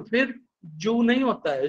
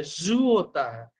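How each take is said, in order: First: जू with a hard j sound; जू as joo; 1 wrong jū. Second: जू said as zoo, slowed; जू with a z, drawn out; 1 z sound. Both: Retold or imitated. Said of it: "मेरे को बोला गया".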